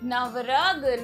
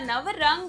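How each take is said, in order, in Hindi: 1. 'g' से पहले अनुनासिक नहीं बोला जाता। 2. 'g' से पहले अनुनासिक बोला जाता है। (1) "नवरग नहीं होता" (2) "र के ऊपर अंग"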